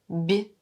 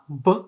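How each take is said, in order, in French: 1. La consonne est molle, palatalisée. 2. La consonne est dure, non palatalisée. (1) "c'est mou" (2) "c'est dur"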